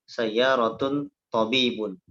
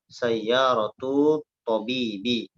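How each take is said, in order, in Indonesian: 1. Kedua kata berakhiran bunyi 'un'. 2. Kata pertama berakhiran 'u', kata kedua berakhiran 'i'. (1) "al-akh membaca sayyaratun tabibun. Ya, nah ini salah ya" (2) "harusnya dibaca hadhihi sayyaratu tabibi"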